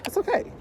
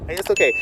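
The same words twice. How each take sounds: First: "okay" swung up high and soft, rising; "It's okay" lilted up high like soothing a child; "okay" pitched way up with a rise; high reassuring okay. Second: Said in the usual way. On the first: Shown as a demonstration. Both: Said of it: "It is okay if it does not happen".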